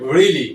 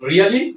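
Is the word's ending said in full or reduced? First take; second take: reduced; full. First: The ending is shortened, dropping one syllable. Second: Every syllable of the ending is fully pronounced. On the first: The speaker calls it right. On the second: The speaker calls it wrong.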